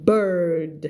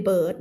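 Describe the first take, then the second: First: "bird" without its R; wrong pronunciation. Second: "bird" with a clear R; "bird" said with its R held; R sounded. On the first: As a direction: say "bird" as a flat "bert", no R. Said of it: "ไม่ bird นะคะ". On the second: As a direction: curl the R in the middle of "bird". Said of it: "bird มี R". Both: Shown as a demonstration.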